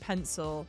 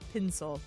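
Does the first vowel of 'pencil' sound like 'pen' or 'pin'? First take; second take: pen; pin. First: The first vowel sounds like 'pen'. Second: The first vowel sounds like 'pin'. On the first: "instead of saying pencil" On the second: "he'll say pencil"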